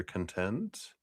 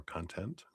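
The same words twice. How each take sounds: First: "content" as kun-TENT, softly with a rise; stress on second syllable. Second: "content" as KON-tent, very soft with a rise; stress on first syllable. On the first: Streamer listing a viewer's name, soft kun-TENT for "content". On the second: Streamer correcting a viewer's name, soft KON-tent for "content". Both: Shown as a demonstration. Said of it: "content, not content".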